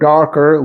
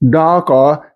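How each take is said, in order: First: The R sounds are pronounced. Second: The R sounds are silent. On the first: "which would be in General American English" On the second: "keeping the R sound silent"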